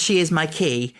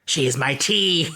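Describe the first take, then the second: First: Said in the usual way. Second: "She is my tea" slow in a villain voice; panto villain. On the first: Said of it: "when she says". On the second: Retold or imitated. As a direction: sneer "tea" like she means to eat her. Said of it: "I always thought she said".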